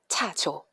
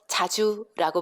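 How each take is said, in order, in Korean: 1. 거센 ch로 시작하고 o로 끝나요. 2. 예사 j로 시작하고 u로 끝나요. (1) "지읒과 치읒 구분을 어려워합니다" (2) "자주라고 불러주면"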